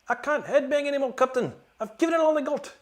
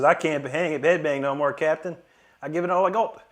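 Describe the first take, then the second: First: It is said in a Scotty impression voice. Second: It is said in his normal voice.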